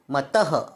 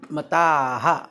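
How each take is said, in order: First: It ends in a short vowel with breathy release. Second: It ends in a long vowel with breathy release. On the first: The speaker calls it wrong. "मतः असं करायचं नाही" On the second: The speaker calls it right. "मताः असा उच्चार करणं अतिशय महत्त्वाचं आहे"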